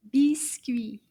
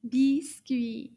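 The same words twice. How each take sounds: First: Breathy whispered "Biscuit"; whispered word. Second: Said in the usual way. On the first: Shown as a demonstration. Teacher whispers the word for the children. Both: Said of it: "Do you remember the word".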